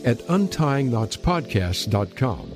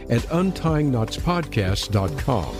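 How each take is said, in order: Both takes have the same delivery.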